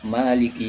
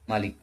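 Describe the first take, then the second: First: The first vowel is held long. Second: The first vowel is kept short. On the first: "Ma-nya panjang ya. Qasar dua harakat" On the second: "membacanya dengan pendek ya"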